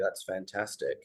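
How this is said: The voice sounds flat and uninterested. The speaker does not really care. The speaker calls it wrong. "on the second one, I sounded like I couldn't really care less"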